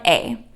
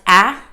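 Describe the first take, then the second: First: The vowel is long, as in 'cake'. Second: The vowel is short, as in 'cat'. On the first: "the long vowel sound A" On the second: "that's the short vowel sound"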